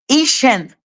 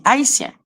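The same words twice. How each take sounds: First: "haïtienne" said the English way, like "HAY-shen"; higher-pitched English-style "haïtienne", sounding like "Haitian"; mauvaise prononciation. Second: "haïtien" said in French, a-i-sien; prononciation française. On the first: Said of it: "On ne dit pas". (« haïtienne » prononcé à l'anglaise, plus aigu) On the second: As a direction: silent h, separate a and i in "haïtien". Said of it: "On dit haïtien". (« haïtien » à la française, h muet) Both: Shown as a demonstration.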